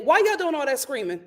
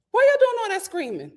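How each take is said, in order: First: Said in the usual way. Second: Higher, exasperated question; pitched-up scolding; mock indignant. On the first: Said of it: "repeats line louder". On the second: Shown as a demonstration. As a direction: call out to the noisy animals. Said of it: "repeat with higher pitch".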